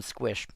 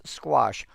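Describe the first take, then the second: First: "squish" with a short i in place of the vowel of squash; the family's "squish", short i before sh; family pronunciation. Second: Said in the usual way. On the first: Shown as a demonstration. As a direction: say "squish", rhyming with fish. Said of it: "In our family, we call them squish". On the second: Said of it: "The general term is squash".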